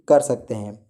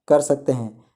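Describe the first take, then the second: No difference in how they are said.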